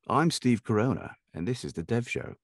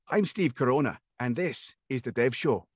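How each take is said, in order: First: It is said in a sophisticated, posh accent. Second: It is said in a Scottish accent.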